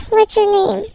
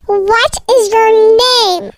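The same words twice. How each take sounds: First: Said in the usual way. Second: Slow, drawn-out demand; insistent demand. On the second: Acted. Stranger asks an ignoring child once more, slow and insistent. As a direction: stretch every word, pressing for an answer. Kidnapper's third, insistent ask.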